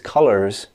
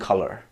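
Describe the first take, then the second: First: The final s sound is clearly pronounced. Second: The final s sound is left off. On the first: The speaker calls it right. "which is how you would say that idiom effectively" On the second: The speaker calls it wrong. "they're not saying the last consonant sound"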